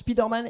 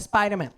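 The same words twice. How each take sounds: First: The name is pronounced with French sounds. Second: The name is pronounced with English sounds. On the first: This is how the French dub says it. "je prononce Spider-Man ... t'as trop regardé la V F" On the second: This is how the original English version says it. "et pas Spider-Man"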